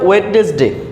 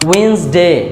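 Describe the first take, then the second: First: The first D and middle vowel are pronounced. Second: The first D and middle vowel are dropped.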